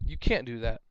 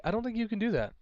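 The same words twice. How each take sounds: First: Flat, lower, confrontational; blunt demand. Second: Polite, higher and light; said nicely. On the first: Player bluntly tells opponent the move is illegal, confrontational. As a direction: say it as a blunt accusation. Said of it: "that just causes a confrontation". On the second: Player politely tells opponent the move isn't allowed, nicely. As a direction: ask it kindly, no edge. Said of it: "say it nicely". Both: Shown as a demonstration.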